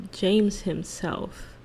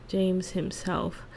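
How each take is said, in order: Both takes have the same delivery.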